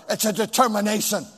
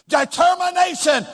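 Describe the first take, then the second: First: Said in the usual way. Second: "Determination" rung out high, stretched on the middle syllables; emphatic DETERMINATION. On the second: Real, not acted. Preacher giving crowd its word, "Determination" high and emphatic. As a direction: proclaim "Determination" with raised pitch and conviction.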